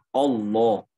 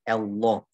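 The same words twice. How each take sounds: First: The first vowel sounds rounded, like o. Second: The first vowel sounds too thin, like e. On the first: "Jadi bukan hamzah, tapi itu malah bunyi o" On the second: "Jangan juga ketipisan jadi e"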